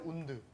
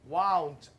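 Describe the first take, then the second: First: The vowel sounds like the 'oo' in moon. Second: The vowel sounds like the 'ow' in cow. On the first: It means an injury. "이게 운드도 있어요" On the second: It means wrapped around. "와운드라고 들리지 않았어요"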